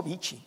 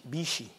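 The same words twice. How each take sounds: First: "bichi" said with a plain ch sound, bi-chi. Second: "bichi" said softly with sh, bi-shi. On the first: Pastor showing the wrong way to say "bichi" with ch. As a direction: say "bichi" with a hard ch. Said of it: "con sh". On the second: Pastor teaching the Sonoran "bichi" with a soft sh. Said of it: "con sh. No ch, pero sh". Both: Shown as a demonstration.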